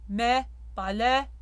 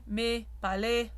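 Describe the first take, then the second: First: Mais palais with the E too open and rising; overly open E. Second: Mais palais with a slightly closed E; semi-closed French E. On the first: Coach showing the too-open mistake to singers. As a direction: palais with an exaggerated wide jaw. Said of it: "That's a little bit too open". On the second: Coach modelling the semi-closed E for singers. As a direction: palais with a tighter, less open vowel. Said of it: "It's not semi". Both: Shown as a demonstration.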